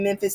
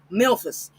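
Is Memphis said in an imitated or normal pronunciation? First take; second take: normal; imitated. First: It is said in the speaker's ordinary pronunciation. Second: It is said in an imitated, unusual pronunciation.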